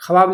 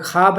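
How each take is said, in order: First: خواب said as written, khawaab, with the w sounded; spelling pronunciation. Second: خواب said as khaab, with no w; silent wao. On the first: Teacher showing how the word is written, spelling pronunciation. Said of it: "لکھا ہے". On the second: Teacher showing how the written word is read, silent wao. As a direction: leave out the و in خواب, long aa after kh. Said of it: "لیکن واو ادائیگی نہیں کیا". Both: Shown as a demonstration.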